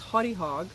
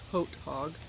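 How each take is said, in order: First: The first word is said with two syllables. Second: The first word is said with one syllable. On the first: The speaker calls it right. "they corrected me. This is pronounced Haughty Hog" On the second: The speaker calls it wrong. "I mispronounced it when I said it. I, I thought it was Haute Hog"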